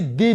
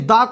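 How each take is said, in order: First: The word ends in a long 'ee' vowel. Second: The word ends in a short 'uh' vowel. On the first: "गुरुजी दी भी बोलते हैं" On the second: "हम लोग दा भी बोलते हैं"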